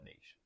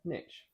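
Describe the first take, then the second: First: It is said with a British pronunciation. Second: It is said with an American pronunciation. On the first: "over here in the U K, we call it" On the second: "for you guys in America"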